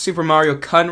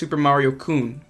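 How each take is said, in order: First: The name is said with an English-style pronunciation. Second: The name is said with a non-English pronunciation. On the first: The speaker calls it wrong. "I pronounced Super Mario Kun wrong" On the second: The speaker calls it right. "It's actually pronounced Super Mario Kun"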